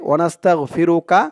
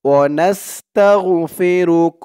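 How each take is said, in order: First: The word ends with an added 'a' vowel. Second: The word ends clipped on the final consonant. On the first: The reciter continues into the next word. "না থামলে ... পরের শব্দ ধরে পড়তে হবে" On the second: The reciter stops after this word. "থামলে"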